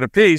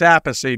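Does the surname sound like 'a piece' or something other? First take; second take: a piece; other. First: The name sounds like the words 'a piece'. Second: The name does not sound like 'a piece'. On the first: This is how an outsider said the name. "he pronounced it a piece" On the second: This is how the family said the name. "My father said [name]"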